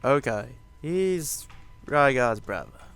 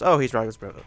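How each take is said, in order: First: It is said slowly and deliberately. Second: It is said quickly and offhandedly.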